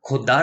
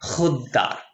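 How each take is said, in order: First: It begins with a plain aspirated k sound. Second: It begins with a raspy throat fricative sound. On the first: The speaker calls it wrong. "खुददार नहीं" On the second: The speaker calls it right. "ख के नीचे नुक्ता है इसलिए खुददार बन जाता है"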